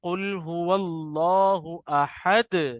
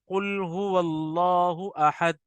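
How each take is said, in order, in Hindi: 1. आख़िरी d गूँज के साथ टकराती है। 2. आख़िरी d सपाट रुकती है, बिना टकराए। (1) "दाल से मिलाने में टकराइए अपनी आवाज को" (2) "अगर कोई पढ़े इस तरीके से ... अब ये गलत है"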